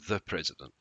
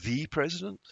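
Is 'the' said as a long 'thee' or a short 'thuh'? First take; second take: short thuh; long thee. First: 'The' is short and weak, like 'thuh'. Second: 'The' is long and forceful, like 'thee'. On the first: "It's a very short sound" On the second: "it's much longer and stronger"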